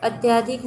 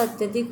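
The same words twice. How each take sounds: First: "अत्यधिक" with long aa after ty; wrong form demonstrated. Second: "अत्यधिक" with short a after ty; correct form demonstrated. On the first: Teacher rejecting misspelling, "अत्यधिक" with stretched yaa. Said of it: "नहीं होता". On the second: Teacher giving right spelling, "अत्यधिक" with short ya. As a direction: say "अत्यधिक" as at-ya-dhik. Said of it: "होता है". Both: Shown as a demonstration.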